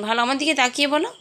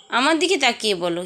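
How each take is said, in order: First: Rushed, stress on দিকে; fast insistent ask, দিকে rising; quick coaxing request. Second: Steady pace, weight on দিকে; calm insistence, দিকে held firm; slower firm repeat. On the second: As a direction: repeat it evenly, landing on দিকে. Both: Real, not acted.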